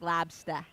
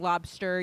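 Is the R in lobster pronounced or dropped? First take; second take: dropped; pronounced. First: The R sound in the word is dropped. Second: The R sound in the word is pronounced. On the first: "You drop the R's" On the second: "instead of saying lobster"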